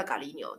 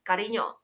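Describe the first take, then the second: First: Galino said soft and low, like a pet name; soft pet-name call; soft tender call. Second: Said in the usual way. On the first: Shown as a demonstration. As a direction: murmur Galino lovingly to a partner. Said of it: "通常会叫". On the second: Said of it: "我叫另外一半比较常会叫".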